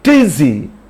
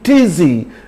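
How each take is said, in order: First: The words are merged into one word. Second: The same.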